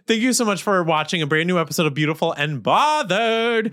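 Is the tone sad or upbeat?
upbeat. The delivery sounds upbeat and positive. "we're going to change the tone here"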